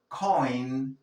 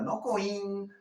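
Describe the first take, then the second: First: Coin drawn out on an "oy" glide; correct coin. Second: Coin said high, as a mistaken learner's version; wrong coin. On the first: Teacher correcting the learner, coin firm with oy glide. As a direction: coin at normal pitch as one firm syllable. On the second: Teacher showing what to avoid, coin mispronounced high. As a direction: pitch coin up as the wrong take. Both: Shown as a demonstration.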